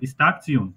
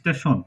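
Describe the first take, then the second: First: The ending is sounded like 'tsion'. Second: The ending is sounded like 'shun'. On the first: This is the German way of saying it. "স্টেশনকে স্টারচিয়ন বলবো" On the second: This is the English way of saying it. "আর স্টেশন"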